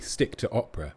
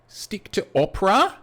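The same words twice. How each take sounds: First: The voice falls at the end like an order. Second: The voice rises at the end like a question. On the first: It is a direct command. The speaker calls it wrong. "I suppose it could be a command" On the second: It is a teasing question or suggestion. The speaker calls it right. "You need that intonation there. You need that kind of Australian"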